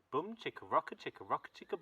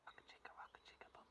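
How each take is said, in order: First: Said in the usual way. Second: Quick breathy whisper echo; fast whisper. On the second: Shown as a demonstration. Storyteller echoes the chant to children in a fast whisper. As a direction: rush it back under your breath.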